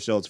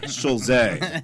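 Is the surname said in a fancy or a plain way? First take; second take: plain; fancy. First: The surname gets a plain, ordinary pronunciation. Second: The surname gets a fancy, foreign-sounding pronunciation. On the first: The speaker calls it right. "but just Heather Shulze" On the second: The speaker calls it wrong. "not Shulze, the fancy version"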